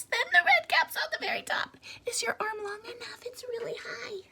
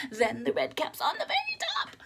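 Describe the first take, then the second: First: High breathy whisper climbing up; soft high whisper reaching up; hushed up high. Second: Laughing. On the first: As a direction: whisper it as the caps stack higher. Stacking caps ever higher, hushed. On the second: Stacking caps again. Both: A narrator's reading.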